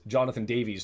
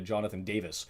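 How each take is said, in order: First: The name ends with a long 'veez' sound. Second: The name ends with a short 'vis' sound. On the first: The speaker calls it right. "turned into" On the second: The speaker calls it wrong. "I kept pronouncing it Davis"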